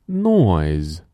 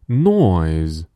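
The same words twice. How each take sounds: Both takes have the same delivery.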